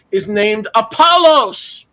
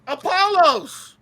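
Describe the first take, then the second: First: Apollos drawn out slow and louder; slow emphatic reveal. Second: Apollos repeated much higher and slowly drawn out; a scoffing, drawn-out Apollos, like you can't believe anyone wrote that; incredulous echo. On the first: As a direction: land the name Apollos like a punchline, slow and loud. Dramatic reveal of the angel's name. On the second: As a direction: echo Apollos in mock disbelief, high and slow. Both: Shown as a demonstration.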